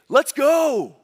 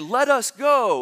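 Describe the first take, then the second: First: Let us is contracted into one syllable. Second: Let us is said as two full words. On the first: It is a rallying cry. The speaker calls it right. "if you're pumped up, then you say" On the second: It is not a rallying cry. The speaker calls it wrong. "So you don't say"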